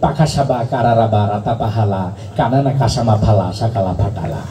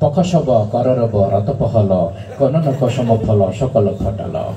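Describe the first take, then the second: First: Every syllable uses the vowel a. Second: Every syllable uses only the plain inherent vowel. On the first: Only the a vowel sign existed. "আকার আবিষ্কার করলো" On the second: No vowel signs existed yet. "আকার ও শিকার কিছু আবিষ্কার হয় নাই"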